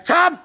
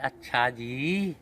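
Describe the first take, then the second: First: It sounds angry and scolding. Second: It sounds sweet and affectionate.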